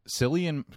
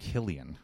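First: The name starts with a soft S sound. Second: The name starts with a hard K sound. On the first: The speaker calls it wrong. "No, I always say that" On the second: The speaker calls it right. "It's Killian"

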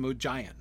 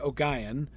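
First: The G is soft, like a J. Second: The G is hard, like in go. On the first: "with the soft G ... stress the second syllable ... He calls him Ogeon" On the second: "Or you could do with a hard G"

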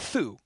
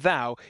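First: The th sound at the start is voiceless. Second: The th sound at the start is voiced. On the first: The speaker calls it right. "the TH is unvoiced in Middle English" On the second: The speaker calls it wrong. "so it's not thou"

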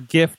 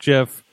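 First: It starts with a hard G sound. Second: It starts with a soft G sound. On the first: The speaker calls it right. "The Mayhemers are about the hard G on here" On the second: The speaker calls it wrong. "not GIF"

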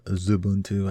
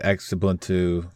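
First: The word begins with a z sound. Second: The word begins with a sound other than z. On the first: The speaker calls it right. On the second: The speaker calls it wrong.

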